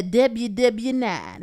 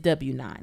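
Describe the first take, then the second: First: Slow, playfully doubled W in W W NINE; joking. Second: Said in the usual way. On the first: Shown as a demonstration. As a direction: stretch out W W NINE as a joke. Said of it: "Let me not do that". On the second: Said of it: "It's just W nine".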